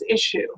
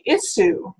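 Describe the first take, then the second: First: It is said in an American way. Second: It is said in a British way. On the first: "what you probably say is issue" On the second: "in the U K, some people say issue"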